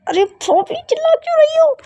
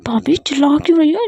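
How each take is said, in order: First: Much higher, squeaky panicked repeat; teasing the sister-in-law by repeating the line as a shrill squeal; exaggerated shriek. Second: Said in the usual way. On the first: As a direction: squeal it in mock alarm.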